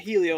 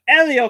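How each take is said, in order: First: The name begins with an h sound. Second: The name begins with a vowel sound. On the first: The speaker calls it wrong. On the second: The speaker calls it right.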